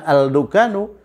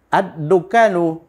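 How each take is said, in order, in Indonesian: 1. Bunyi L diucapkan dengan jelas sebelum D. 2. Bunyi L melebur menjadi bunyi D yang dobel. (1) "Kenapa bukan al-dukanu?" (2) "diasimilasikan ke dal menjadi ad"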